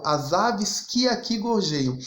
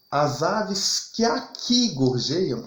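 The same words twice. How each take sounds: First: Slow reading with que set apart and stressed; teacher marks que as the stressed beat of the verse. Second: Slow scansion, with aqui drawn out and stressed; teacher leans on aqui to show the stressed syllable. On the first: Teacher reciting the verse again for students, stressing que. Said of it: "ele tá falando lá de Portugal". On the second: Teacher showing students the stress falls on aqui. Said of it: "Só que veja". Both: Shown as a demonstration.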